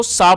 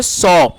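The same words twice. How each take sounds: First: "सा" with a long open "aa" vowel; mispronounced "saw". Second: "सॉ" with a rounded "aw" vowel; correctly pronounced "saw". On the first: English teacher showing learners a common misreading, mispronounced as "सा" with "aa". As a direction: say saw wrongly as "सा", rhyming with "baa". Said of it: "बिल्कुल गलत pronunciation". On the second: Teacher modelling the word for learners, "सॉ" pronounced with "aw". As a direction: say "सॉ" with rounded "aw", not open "aa". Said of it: "correct pronunciation है वो है". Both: Shown as a demonstration.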